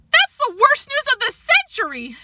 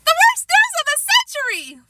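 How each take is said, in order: First: High dramatic wail; Sheila crying out. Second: Even higher mocking copy of her wail; imitating Sheila. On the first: Sheila hearing Jimmy is coming, high dramatic outcry. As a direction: wail it like a put-out girl. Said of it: "Sheila cried". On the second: Fudge mocking Sheila's outburst, shrieking imitation. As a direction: ape her wail back at her. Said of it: "doing a perfect imitation of Sheila". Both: A narrator's reading.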